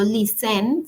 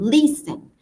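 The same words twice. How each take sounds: First: The stress is on the second syllable. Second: The stress is on the first syllable. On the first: The speaker calls it wrong. "Yo no digo" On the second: The speaker calls it right. "sino listen; la acentuación va al inicio"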